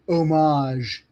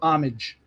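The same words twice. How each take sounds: First: It is said with a French-sounding pronunciation. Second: It is said with a plain English pronunciation. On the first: The speaker is trying to sound sophisticated. The speaker calls it wrong. "when people say homage" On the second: The speaker is using the ordinary form. The speaker calls it right. "instead of homage"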